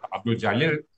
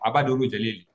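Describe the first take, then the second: First: The name is said without added vowels. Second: Extra vowels are added after the consonants.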